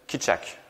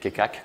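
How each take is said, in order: First: The middle consonant sounds like 'ch'. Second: The middle consonant sounds like 'k'. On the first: The speaker calls it right. "j'ai encore fait du Google euh, machin pour savoir comment prononcer ça" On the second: The speaker calls it wrong. "je disais Kekak, comme tout le monde, je pense, et c'est pas du tout ce qu'on dit"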